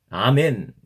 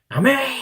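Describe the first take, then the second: First: It is said weightily, clearly and not loudly. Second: It is shouted loudly and forcefully.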